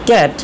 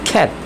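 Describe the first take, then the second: First: The first sound has no puff of air. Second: The first sound has a puff of air. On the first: The speaker calls it wrong. "আমরা বলি ক্যাট" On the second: The speaker calls it right. "খয়ের মতো খ"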